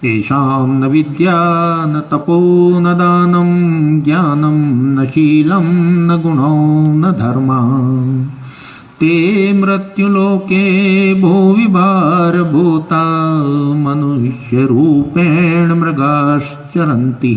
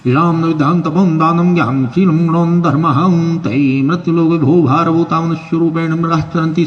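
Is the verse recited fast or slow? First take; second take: slow; fast. First: The verse is recited slowly and clearly. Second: The verse is rattled off very quickly. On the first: "बहुत आराम से सुनाऊंगा, धीरे धीरे" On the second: "ये बहुत जल्दी जल्दी बोलते हैं"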